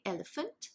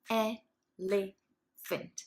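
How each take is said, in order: First: Said in the usual way. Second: Elephant said very slowly, each syllable drawn out; split into syllables. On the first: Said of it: "you can say". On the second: Shown as a demonstration. Pupil answering the teacher by chunking the word. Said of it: "the student will go".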